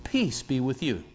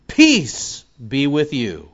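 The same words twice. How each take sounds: First: A softer, quiet repeat of the greeting; soft echo. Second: Slow, louder proclamation; proclaimed. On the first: Preacher repeating Jesus' greeting to himself, quietly. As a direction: Peace be with you said softly, like a hushed echo of the proclamation. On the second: Preacher reading Jesus' greeting to disciples, slow and proclaimed. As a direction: draw out the blessing slowly. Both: Shown as a demonstration.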